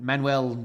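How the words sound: The name is said with English-style pronunciation. This is how the speaker would usually say it. "how I would normally pronounce that"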